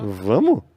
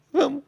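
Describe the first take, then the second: First: "Vamos?" asked in loud disbelief, rising; surprised question. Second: Said in the usual way. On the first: Retold or imitated. [name] surprised at Maurício's promise, loud rising "Vamos?". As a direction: caught off guard by "Vamos", louder. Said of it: "Eu fiz assim".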